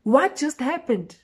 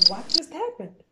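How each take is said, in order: First: Slower, louder, high incredulous question; louder slow disbelief. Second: Higher, bewildered question; stunned disbelief. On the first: Narrator realising what happened, slow and loud. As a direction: draw it out in disbelief. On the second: Narrator left wet and confused, stunned. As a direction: ask it in shock. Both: Retold or imitated.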